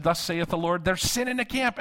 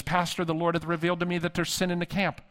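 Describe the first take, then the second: First: High, insistent mock prophetess; thicker King James prophecy. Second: Lightly voiced prophetess, pitched up; solemn King James pronouncement, mildly put on; prophetic intercessor. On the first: Irked intercessor repeats her word to the pastor, mock prophetic proclamation. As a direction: build to a high-pitched proclamation of doom. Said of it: "the King James got thicker". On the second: Woman delivers a prophetic word to her pastor, lightly voiced prophetess. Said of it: "she would go into King James language".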